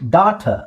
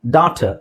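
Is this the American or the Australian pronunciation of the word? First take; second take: Australian; Australian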